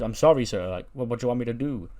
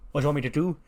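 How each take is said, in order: First: Lightly voiced waiter, deferring to an angry customer; apologetic waiter. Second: Higher-pitched don throwing the question back; indignant mob boss. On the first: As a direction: plead politely as a flustered waiter. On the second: Acted. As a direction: echo it back in acted indignation. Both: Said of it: "He goes".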